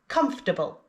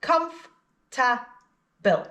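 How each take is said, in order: First: Said in the usual way. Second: Very slow, "Comf-ta-ble" in three separate beats; syllable by syllable. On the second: Shown as a demonstration. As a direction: stretch out comf, ta, ble one by one. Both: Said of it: "Three syllables".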